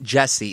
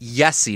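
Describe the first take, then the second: First: The name begins with a J sound. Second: The name begins with a Y sound. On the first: The speaker calls it wrong. "not Jesse" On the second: The speaker calls it right. "It's pronounced Yessi"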